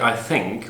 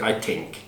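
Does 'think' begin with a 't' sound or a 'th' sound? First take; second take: th; t. First: 'Think' begins with a soft 'th' sound. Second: 'Think' begins with a hard 't' sound. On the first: This is how native speakers say it. The speaker calls it right. "you don't say I think" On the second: This is how speakers from Turkey say it. The speaker calls it wrong. "we say I think"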